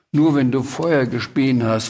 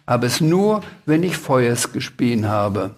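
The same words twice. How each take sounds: First: Said in the usual way. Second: "Feuers" for Feuer, ending in a clear S; R replaced by S. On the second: A narrator's reading. Dragon explains to Sams, "Feuers" ending in S. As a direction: say "Feuers" with S in place of final R. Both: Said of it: "Du kannst kein R sprechen".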